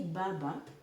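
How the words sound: The word begins with a voiced b sound. "when you say baba in Swahili"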